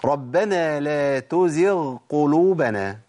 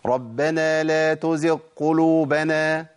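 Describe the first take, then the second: First: The gh sound is clearly pronounced before q. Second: The gh sound is dropped and merged into q. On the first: The speaker calls it right. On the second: The speaker calls it wrong.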